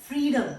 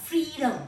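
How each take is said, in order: No difference in how they are said.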